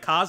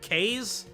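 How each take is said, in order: First: The name does not rhyme with haze. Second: The name rhymes with haze. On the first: "I'm assuming that's like Kaze or something" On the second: "does it rhyme with haze? Is it Kaze?"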